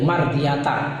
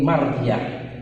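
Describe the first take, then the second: First: The word ends with a ta syllable. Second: The word ends with an h sound. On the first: The speaker calls it wrong. "Tidak boleh mardiyata" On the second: The speaker calls it right. "tapi mardiyah"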